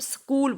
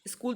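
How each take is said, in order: First: Said the careful standard English way. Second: Said the everyday Hindi-speech way. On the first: The speaker calls it right. "तो इसको हम स्कूल बोलते हैं" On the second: The speaker calls it wrong. "स्कूल तो हम normal language में बोल देते हैं"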